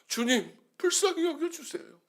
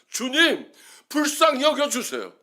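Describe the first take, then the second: First: It is said at a somewhat softer volume. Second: It is said at full, loud volume. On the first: "십이 포인트로 썼다가" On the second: "십사 포인트로 썼다가"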